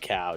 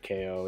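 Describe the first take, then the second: First: The name rhymes with now, one syllable. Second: The name is said as two syllables, kay-oh. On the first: "I say cow" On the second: "or K O"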